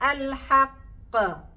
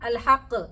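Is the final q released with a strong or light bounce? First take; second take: strong; light. First: The final q has a strong, heavy bounce. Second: The final q has only a light bounce. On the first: The speaker calls it right. "അപ്പൊ നമ്മുടെ എങ്ങനെ പറയണം?" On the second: The speaker calls it wrong. "നേരത്തെ പോലെ പറഞ്ഞു നോക്കിയാട്ടെ"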